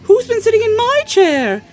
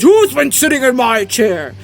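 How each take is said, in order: First: It is said in a middle-sized voice. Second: It is said in a great big voice. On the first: "said in her middle-sized voice" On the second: "said in a great big voice"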